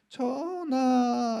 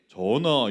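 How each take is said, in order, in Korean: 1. 목소리가 아주 가늘고 높아요. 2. 목소리가 보통 남자 목소리예요. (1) "전하 이러면서 목소리 굉장히 가늘게" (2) "남자인데 전하 이렇게 안 하고"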